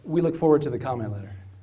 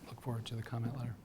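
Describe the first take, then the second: First: It is said loudly. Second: It is said quietly.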